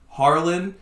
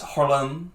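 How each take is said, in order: First: The name is said in a Southern American accent. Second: The name is said in a French accent. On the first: "like American English, ... just Southern" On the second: "French, it's Harlem or something like that. I probably did it wrong"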